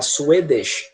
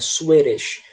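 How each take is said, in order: First: The middle consonant is a clear D. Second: The middle consonant is an R-like flap. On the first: "com som de D" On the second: "esse D, ele vira som de R"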